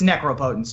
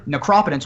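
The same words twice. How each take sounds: First: The word is split into 'necro' and 'potence'. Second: The word is not split into 'necro' and 'potence'. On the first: This is how the players' community says it. "it's necropotence to us" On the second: This is the formally correct pronunciation. "necropotence would probably be the correct pronunciation"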